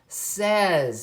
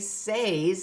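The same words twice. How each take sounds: First: The vowel sounds like the one in bed. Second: The vowel sounds like the one in day. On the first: The speaker calls it right. "it says says" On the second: The speaker calls it wrong. "it doesn't say says"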